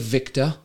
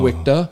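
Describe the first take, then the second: First: It is said in a plain accent with V. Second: It is said in an Indian accent with W.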